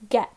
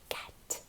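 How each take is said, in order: First: It is said in a normal speaking voice. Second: It is said in a soft whisper. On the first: "Let's read it together" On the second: "let's whisper it together"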